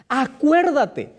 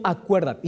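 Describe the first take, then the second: First: Acuérdate drawn out slowly with weight on every syllable; emphatic Acuérdate. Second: Said in the usual way. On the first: Shown as a demonstration. Preacher driving home the forgotten commandment, slow and emphatic. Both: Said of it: "este mandamiento comienza diciendo".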